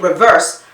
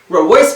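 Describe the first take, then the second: First: The middle consonant is a V sound. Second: The middle consonant is a W sound. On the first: "they don't say reverse" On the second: "these turn to W's in the Bahamas too"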